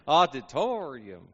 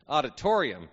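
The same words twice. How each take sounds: First: "auditorium" drawled slowly with stretched Texan vowels; Texan drawn-out syllables. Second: Said in the usual way. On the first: Shown as a demonstration. Preacher joking about big words, "auditorium" in long Texan drawl. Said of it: "a half a syllable". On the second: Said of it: "the big ones".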